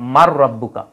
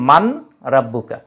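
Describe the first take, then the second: First: The n merges into a doubled r. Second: The n is pronounced before the r. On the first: "ঈদগামের কারণে হয়ে যায় মার রাব্বুকা" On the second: "কিন্তু শব্দটা কি মান রাব্বুকা"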